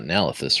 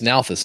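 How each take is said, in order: First: The name is said with three syllables. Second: The name is said with two syllables. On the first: The speaker calls it wrong. "not Nalithis" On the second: The speaker calls it right. "it's it's Nalthus"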